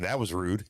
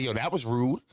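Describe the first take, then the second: First: Mock polite Kyle tone; inner Kyle voice. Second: Said in the usual way. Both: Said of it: "my inner Kyle kicked in".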